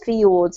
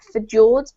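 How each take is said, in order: First: The J is sounded like a Y. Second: The J is not sounded like a Y. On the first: The speaker calls it right. "but fjords, as if it were a Y" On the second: The speaker calls it wrong. "not fjords"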